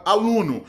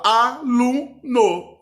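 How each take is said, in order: First: Said in the usual way. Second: "aluno" slowly split as a-lu-no; "aluno" drawn out syllable by syllable, higher and louder. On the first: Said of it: "Você fala aluno". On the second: Shown as a demonstration. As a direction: sound out "aluno" in three separate syllables, a, lu, no. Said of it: "as palavras por sílaba".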